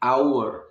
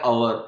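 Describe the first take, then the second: First: It begins with an 'ow' sound. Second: It begins with a short 'uh' sound. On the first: The speaker calls it right. "आउ की आवाज आएगी starting में" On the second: The speaker calls it wrong. "अवर नहीं है"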